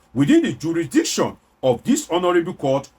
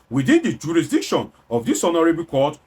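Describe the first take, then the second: Both takes have the same delivery.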